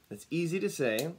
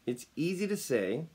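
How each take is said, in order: Both takes have the same delivery.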